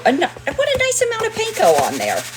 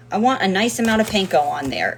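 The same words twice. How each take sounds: First: Squeaked up very high; high squeaky voice. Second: Said in the usual way. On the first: Pretend. Repeats line, first take squeaky high.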